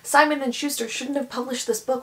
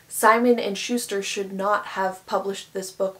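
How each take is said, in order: First: 'Should not' is contracted to 'shouldn't'. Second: 'Should not' is said as two full words. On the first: The speaker calls it right. "I would say" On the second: The speaker calls it wrong. "I wouldn't say"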